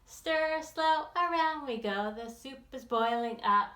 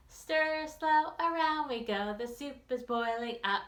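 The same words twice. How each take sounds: The two takes are said the same way.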